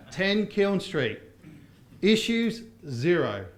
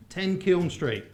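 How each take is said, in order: First: Ten Kiln Street drawn out very slowly; slow, determined read. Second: Kiln said slow and deliberate; careful Kiln. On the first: Teacher reads the cleaner's text very slowly. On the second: Teacher insists on saying Kiln Street right. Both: Shown as a demonstration. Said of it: "I'm determined".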